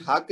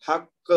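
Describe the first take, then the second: First: حق ending softly on ق, no bounce; soft final qaf. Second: حق with the final ق bounced out firmly, a small echo; echoing qaf. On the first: Teacher showing students the wrong soft ending. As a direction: let the ق of حق close quietly. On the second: Teacher showing students the strong qalqala bounce. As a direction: jolt the ق at the end of حق. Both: Shown as a demonstration. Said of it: "حق نہیں کہیں گے".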